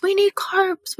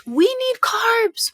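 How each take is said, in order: First: Need lifted high; stress on NEED. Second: Carbs drawn out high and slow; stress on CARBS. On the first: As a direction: push the word need up high. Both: Shown as a demonstration. Repeats phrase with shifting stress.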